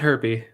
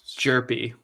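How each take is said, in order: First: The name begins with an H sound. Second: The name begins with a J sound. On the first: The speaker calls it wrong. "It's not herpy" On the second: The speaker calls it right. "There's a correct pronunciation"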